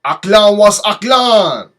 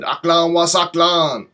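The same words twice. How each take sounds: First: Slow loud "Aklan was Aklan", Arabic vowels drawn out; half-shouted "Aklan was Aklan", every syllable stretched; Arabic greeting. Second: "Aklan was Aklan" said a bit slower and clearer; patient repeat of "Aklan was Aklan"; repeated Arabic greeting. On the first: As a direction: say "Aklan was Aklan" slowly and loudly, as a foreign greeting. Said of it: "Which I believe means welcome". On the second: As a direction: repeat "Aklan was Aklan" carefully, as if for someone who missed it. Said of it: "so I repeated myself and said". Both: Retold or imitated.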